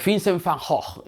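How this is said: The name is said with a Dutch pronunciation.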